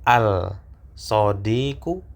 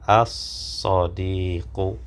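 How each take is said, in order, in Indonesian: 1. Bunyi l dibaca sebelum s. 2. Bunyi l diam dan s dibaca ganda. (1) "Apakah al-sodiqu atau as-sodiqu?" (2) "lamnya tidak dibaca"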